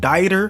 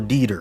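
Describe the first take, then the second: First: The name does not rhyme with Skeeter. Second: The name rhymes with Skeeter.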